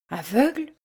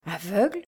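First: Shocked rising question; stunned. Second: Hushed disbelief. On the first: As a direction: repeat it in disbelief. (stupéfaite, voix qui monte) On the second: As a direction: say it again, half to herself. (écho plus doux, incrédule) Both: A narrator's reading. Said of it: "répéta la comtesse".

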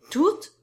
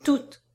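First: High, rising, louder question; echoed question. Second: TOUTES as a firm statement, high and loud; firm confirmation. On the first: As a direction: echo TOUTES as a startled question. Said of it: "fit Edmé comme un écho". (« Toutes » en écho, interrogation aiguë) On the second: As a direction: confirm TOUTES without any questioning rise. Firm answer to her echoed question. (« Toutes » affirmé nettement, voix forte) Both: A narrator's reading.

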